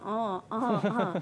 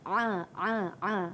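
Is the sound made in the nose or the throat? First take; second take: nose; throat. First: The sound is nasal, coming through the nose. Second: The sound is squeezed from deep in the throat. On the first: The speaker calls it wrong. "Bukan di hidung ya" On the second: The speaker calls it right. "makhrajnya ialah di halqum"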